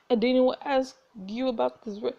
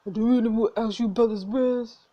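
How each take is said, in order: First: Said in the usual way. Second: A lightly put-on gruff stranger, a bit louder; a hint of a tough bar patron's voice; character voice. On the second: GM restarts the line in a lightly voiced character. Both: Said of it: "I need to make a voice for you".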